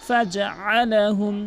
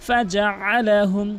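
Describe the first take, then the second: No difference in how they are said.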